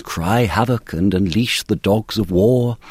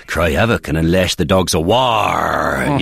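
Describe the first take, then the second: First: Slow, posh received pronunciation. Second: Slow original pronunciation Shakespeare. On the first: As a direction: declaim it in stately received pronunciation. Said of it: "in received pronunciation, it's". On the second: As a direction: growl it out in Elizabethan original pronunciation. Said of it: "it's already there for you in original pronunciation". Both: Shown as a demonstration.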